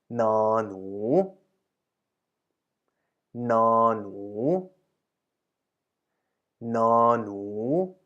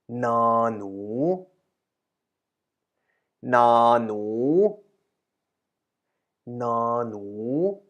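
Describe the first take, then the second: No difference in how they are said.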